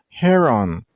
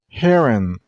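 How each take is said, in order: First: The stress is on the second syllable. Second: The stress is on the first syllable. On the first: The speaker calls it wrong. "not heron" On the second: The speaker calls it right. "you also stress on the first syllable"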